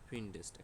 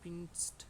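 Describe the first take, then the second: First: An extra vowel is sounded before the final st. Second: No vowel is sounded before the final st. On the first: The speaker calls it right. "একটা এ এক্সট্রা একটা এ যুক্ত করে তারপর আমরা এস্টে যুক্ত করলাম।" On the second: The speaker calls it wrong. "কষ্ট হচ্ছে।"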